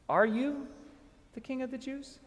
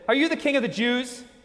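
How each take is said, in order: First: It is asked in a sincere, searching tone. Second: It is asked in a dismissive, doubting tone.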